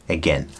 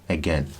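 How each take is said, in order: No difference in how they are said.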